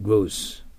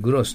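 First: It is said as an English word. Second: It is said as a Japanese loanword.

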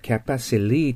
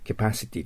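First: The t is softened, almost like an l. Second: The t is clearly pronounced as a t. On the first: "t がほとんど消えて l になったり、消えるような発音になります。だからcapacity と聞こえることもあります" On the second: "私たちはcapacity と言っていいんですけど"

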